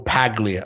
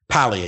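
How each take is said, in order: First: The G sound is pronounced. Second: The G sound is silent. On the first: The speaker calls it wrong. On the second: The speaker calls it right.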